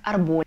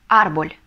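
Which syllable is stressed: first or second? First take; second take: second; first. First: The stress is on the second syllable. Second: The stress is on the first syllable. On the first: The speaker calls it wrong. "Потому что если не поставим, то получится у нас арболь" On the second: The speaker calls it right. "Ставим ударение на первый слог"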